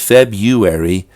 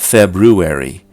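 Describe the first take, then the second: First: The first R sound is left out. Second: The first R sound is clearly pronounced. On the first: "The most common pronunciation is February" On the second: "not February"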